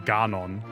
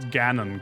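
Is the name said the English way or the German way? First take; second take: German; English. First: The name is said in the German dub's way. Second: The name is said in the usual English way. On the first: The speaker calls it wrong. "They say Ganon" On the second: The speaker calls it right. "we pronounced Ganon correctly"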